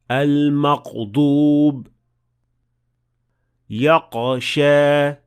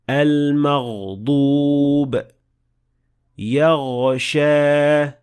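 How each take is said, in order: First: The consonant stops abruptly, like a q sound. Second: The consonant flows smoothly as a continuous gh sound. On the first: The speaker calls it wrong. "the sound will stop and it will sound more like a qaf" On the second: The speaker calls it right. "the sound of ghain should flow smoothly"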